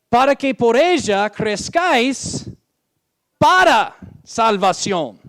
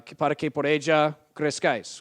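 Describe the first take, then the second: First: "salvación" said louder and slower, leaned on; stressed reading. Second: Said in the usual way. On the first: Shown as a demonstration. Preacher showing the congregation the wrong verse, loud and stressed. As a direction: read "para que por ella crezcáis" up high, then hammer "para salvación". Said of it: "La sesenta dice". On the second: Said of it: "el Rey Jaime dice lo mismo".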